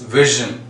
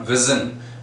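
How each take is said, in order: First: The middle consonant is a zh sound. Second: The middle consonant is a plain z sound. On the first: The speaker calls it right. "it's vision. There is a big difference" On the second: The speaker calls it wrong. "but it's not vision"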